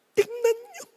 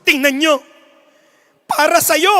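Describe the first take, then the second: First: A lightly voiced emotional announcer; dramatic announcer. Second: Louder, rising appeal; mock-fervent announcer, a little louder; dramatic announcer. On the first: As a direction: coax the crowd softly, up high. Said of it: "Sabi nung announcer". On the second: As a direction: push the emotion at the crowd. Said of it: "Sabi ng announcer".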